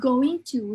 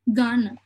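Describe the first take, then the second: First: Both words are said fully and separately. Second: The words are squeezed together into two syllables. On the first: It is the standard, more formal form. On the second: It is the casual, informal form.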